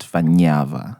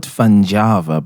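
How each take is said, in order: First: "Fanyava" with ny gliding into the vowel; correct pronunciation. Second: "Fanjava" with a hard J sound; "Fanjava" read just as written, fan-JAH-va; said as spelled. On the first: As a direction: say "Fanyava" as fan-YAH-va. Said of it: "it's actually pronounced Fanyava". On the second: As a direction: say "Fanjava" with j as in jar. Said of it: "it's spelled Fanjava". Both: Shown as a demonstration.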